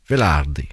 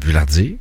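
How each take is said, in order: First: The name is said with an Italian accent. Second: The name is said with a French accent.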